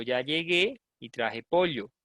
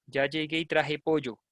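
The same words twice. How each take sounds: First: Llegué as "lyegué", pollo as "POL-yo"; slow, with a palatal "ly" in llegué and pollo; own ll pronunciation. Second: Llegué as "yegué" and pollo as "PO-yo"; imitated yeísta pronunciation. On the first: Shown as a demonstration. Teacher showing how she says it, pollo as "POL-yo". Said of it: "yo digo". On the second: Teacher showing what she doesn't say, pollo as "PO-yo". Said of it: "Yo no digo eso".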